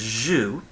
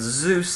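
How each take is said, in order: First: It starts with j and drops the s. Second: It starts with z and ends with s. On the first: This is how a Latin speaker would say it. "They'd soften the J, the Z sound to a J sound" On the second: This is the original Greek name. "the Greek word Zeus"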